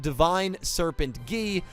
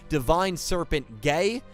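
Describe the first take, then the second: First: The last word is said like 'gi'. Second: The last word is said like 'gay'. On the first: The speaker calls it right. "it is actually pronounced" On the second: The speaker calls it wrong.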